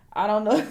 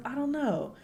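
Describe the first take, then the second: First: Mock voice. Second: Said in the usual way.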